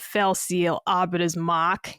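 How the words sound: It is said in a Boston accent.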